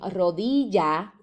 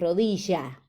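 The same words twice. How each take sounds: First: It is said in the speaker's own accent. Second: It is said in a Buenos Aires accent. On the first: "ellos no dicen rodilla como nosotros" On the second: "sino que dicen rodilla"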